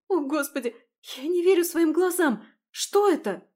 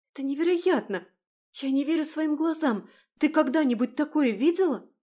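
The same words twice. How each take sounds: First: High, loud shocked cry; shocked shout. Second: Amazed. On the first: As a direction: shriek in disbelief. Ужас перед зеркалом. (потрясённый крик) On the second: Изумление у зеркала. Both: Acted.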